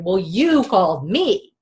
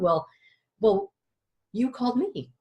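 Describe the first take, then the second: First: It is said loudly and forcefully. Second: It is said quietly and softly.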